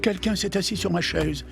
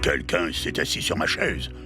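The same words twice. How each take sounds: First: A medium voice, like Mama Bear. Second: A deep, gruff voice, like Papa Bear.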